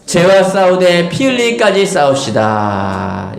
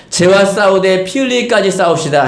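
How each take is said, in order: First: Congregation-style proclamation. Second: Said in the usual way. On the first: Real, not acted. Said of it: "시작". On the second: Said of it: "옆에 분 가면 인사하겠습니다".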